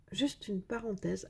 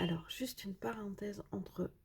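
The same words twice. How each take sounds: First: Said in the usual way. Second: Aparté chuchoté, tout bas. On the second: Real, not acted. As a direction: glisser la parenthèse en confidence. Aparté chuchoté aux spectateurs. (murmure de confidence)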